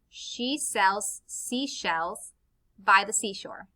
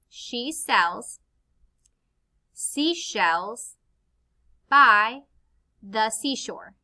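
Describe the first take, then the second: First: It is said at a quicker pace. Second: It is said at a slower pace.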